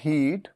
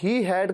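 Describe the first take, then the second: First: One contracted syllable, he'd. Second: Two full words, he and had. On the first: "contraction हीड" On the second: "ही हैड का contraction"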